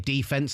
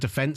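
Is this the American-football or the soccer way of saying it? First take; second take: American-football; soccer. First: Said the way American football announcers say it. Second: Said the way soccer commentators say it. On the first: The speaker slipped into the other sport's usage. The speaker calls it wrong. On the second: The usage expected when talking about soccer. The speaker calls it right.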